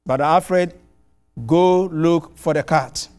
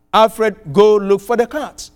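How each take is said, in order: First: Slow, mildly stern order; retold threat. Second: Firm, slightly raised order; retold command. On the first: Angry host orders his guest to find the cat, slow mild sternness. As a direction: lay down the order slowly, a hint of menace. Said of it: "he issued a threat". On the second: Host commands the preacher to find the cat, firm mock order. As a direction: bark it as a command, half-mocking. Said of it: "he issues the command".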